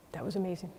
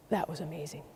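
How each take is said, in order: First: Much softer, hushed agreement; awed echo. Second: Much softer, lower, almost to himself; awed hush. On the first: Speaker agreeing with Dave, hushed and reverent. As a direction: echo him in a reverent hush. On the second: Dave outside the building, quietly awed. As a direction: let the wonder hush the voice. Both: Retold or imitated.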